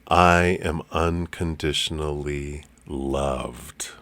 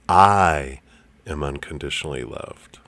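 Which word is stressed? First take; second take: loved; I. First: The stress is on the word loved. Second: The stress is on the word I.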